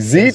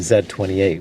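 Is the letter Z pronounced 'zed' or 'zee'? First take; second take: zee; zed. First: It is said the American way, 'zee'. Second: It is said the Canadian way, 'zed'.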